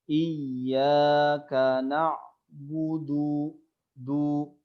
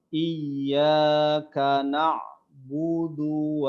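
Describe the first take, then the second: First: The final vowel of na'budu is drawn out. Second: The final vowel of na'budu is short. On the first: The speaker calls it wrong. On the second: The speaker calls it right.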